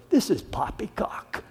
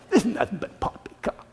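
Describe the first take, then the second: First: Sneering. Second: "This is nothing but poppycock" scoffed through a laugh, quickened and softer; mocking laugh dismissing the preacher as a fool; laughing sneer. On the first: Acted. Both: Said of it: "some sneered".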